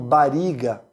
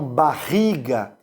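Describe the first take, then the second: First: The middle R is a light single tap. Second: The middle R is a strong guttural sound. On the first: This is how Italian immigrants say it. "eles falam bariga" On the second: This is how locals say it. "Eles não falam barriga"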